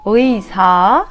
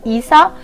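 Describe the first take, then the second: First: The word begins with a gliding wi sound. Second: The word begins with a plain i sound. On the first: The speaker calls it right. "میگم ویسا" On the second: The speaker calls it wrong. "نمیگم ایسا"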